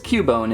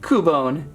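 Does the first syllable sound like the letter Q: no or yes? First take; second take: yes; no. First: The first syllable sounds like the letter Q. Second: The first syllable does not sound like Q. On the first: "it would be with an actual Q" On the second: "I'm gonna stick with Cubone"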